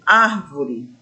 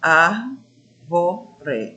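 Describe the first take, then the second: First: Said in the usual way. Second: "Árvore" split into syllables, weight on "Ár"; "Árvore" broken up, leading hard with "Ár"; stress on first syllable. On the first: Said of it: "a palavra árvore". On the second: Shown as a demonstration. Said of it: "a sílaba que a gente pronuncia com mais intensidade".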